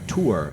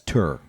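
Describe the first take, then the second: First: The vowel sounds like the one in 'poor'. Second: The vowel sounds like the one in 'fur'. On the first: "how he says uh, tour" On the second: "as tur"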